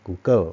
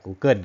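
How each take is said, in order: First: Google ending in an open w-like sound, "กูเกิ้ว"; Thai-accented variant. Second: Google ending in a clear n, "กูเกิ้น"; Thai-accented variant. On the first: Teacher allowing either accent, Google as "กูเกิ้ว". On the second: Teacher allowing either accent, Google as "กูเกิ้น". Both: Shown as a demonstration. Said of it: "ถ้าได้ยินสำเนียงอย่างนี้ก็อย่าไปแปลกใจ".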